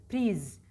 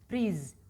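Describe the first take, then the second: No difference in how they are said.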